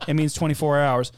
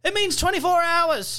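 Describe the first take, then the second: First: Said in the usual way. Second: High, put-on go-between voice; high-pitched parroted announcement; mock relay shout. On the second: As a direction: call it up the line in a high voice. Relay bit, go-between repeats it louder.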